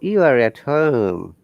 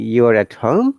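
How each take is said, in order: First: It sounds like a certain statement. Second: It sounds like a question. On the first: The speaker already knows it. "this tone indicates that I'm certain you're at home" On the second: The speaker is not sure and is asking. "from the tone you can understand it's a question"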